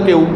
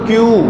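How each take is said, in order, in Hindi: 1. इसे 'kyon' की तरह बोला जाता है, नासिका वाले स्वर के साथ। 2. इसे 'kyu' की तरह बोला जाता है, सादे स्वर के साथ। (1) "ऐसे स्कूल में भी एक बच्चा वो बोलता क्यों" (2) "तो भाई क्यू बोलो"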